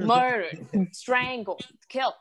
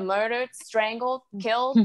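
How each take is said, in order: First: "Murdered, strangled, killed" each high, then falling hard; mom's grim listing. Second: "murdered, strangled, killed" each lifted as a question; mom's alarmed questioning. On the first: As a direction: drop the tune on "Murdered", "strangled" and "killed" as separate verdicts. Mom repeats the list as fact. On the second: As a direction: raise the pitch at the end of "murdered", "strangled" and "killed". Mom interrogates child, listing dangers. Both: Retold or imitated.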